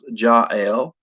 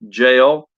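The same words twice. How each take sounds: First: The name does not rhyme with jail. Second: The name rhymes with the word jail. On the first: "or I've heard her name pronounced Jael" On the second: "like rhymes with J A I L, or rhymes with Gail"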